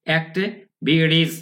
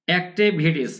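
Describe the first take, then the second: First: "Activities" very slowly in parts, ek-te ... bi-ris; pronunciation demo. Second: Said in the usual way. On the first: Shown as a demonstration. Teacher shows students the e-like vowel, slow split pronunciation demo. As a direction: break up "Activities", e sound after the t. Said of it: "কিছু একারের মতো হবে". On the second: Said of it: "আমরা এখানে রস্যই উচ্চারণ করবো না".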